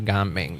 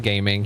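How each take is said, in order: First: It sounds like the Chinese name Ga-ming. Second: It sounds like the English word gaming. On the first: The speaker calls it right. "That's how you're supposed to read it" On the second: The speaker calls it wrong. "He's not supposed to be gaming"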